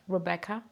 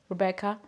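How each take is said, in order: Both takes have the same delivery.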